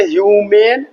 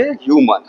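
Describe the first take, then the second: First: "ह्यूमेन" with a long "ay" in मेन; "ह्यूमेन", ending in a clear long "mayn"; long final vowel. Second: "ह्यूमन" with a short "uh" in मन; "ह्यूमन", second syllable kept short as "mun"; short final vowel. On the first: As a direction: stretch the second syllable of "ह्यूमेन" to rhyme with main. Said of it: "उसको बोलेंगे ह्यूमेन". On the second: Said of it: "को बोलेंगे ह्यूमन". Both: Shown as a demonstration.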